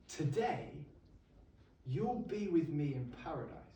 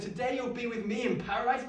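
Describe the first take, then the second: First: Softer, gentle and hushed; a dying man's soft promise to a criminal; soft quote of Jesus. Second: Higher, mock-disbelieving echo of the words; incredulous repeat. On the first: Acted. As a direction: say it softly, as a quiet promise. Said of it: "And he turns to him and says". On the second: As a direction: repeat it as if it's absurd. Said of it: "What a ridiculous thing to say".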